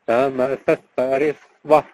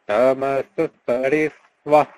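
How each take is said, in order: No difference in how they are said.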